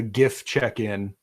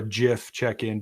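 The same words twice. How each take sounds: First: "gif" with a hard g as in "gift". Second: "gif" with a soft g, like "jif". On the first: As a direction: say "gif" starting with a hard g sound. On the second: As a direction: say "gif" starting with a j sound. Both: Shown as a demonstration. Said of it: "depending on how you pronounce it".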